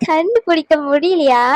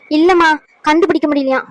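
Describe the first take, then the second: First: Slow, savoured repeat of கண்டுபிடிக்க முடியலையா; gloating. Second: Said in the usual way. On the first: Acted. Schemer savours that they couldn't find out, slow gloating repeat. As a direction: let கண்டுபிடிக்க முடியலையா roll out slowly in triumph. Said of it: "சந்தோஷத்தை உச்சியில இருக்கேன்".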